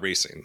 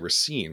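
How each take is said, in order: First: It is pronounced the Southern way. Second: It is pronounced the Wisconsin way. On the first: "That's like maybe like a Southern thing" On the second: "in Wisconsin, we say Racine"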